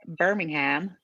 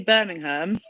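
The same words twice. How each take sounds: First: It is said with an American pronunciation. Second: It is said with a British pronunciation. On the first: "in America, you say Birmingham" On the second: "I'll say Birmingham"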